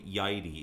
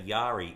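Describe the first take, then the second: First: The first vowel sounds like 'eye'. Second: The first vowel sounds like 'ah'. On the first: The speaker calls it right. "It's actually Yadi" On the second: The speaker calls it wrong. "a lot of people say Yari"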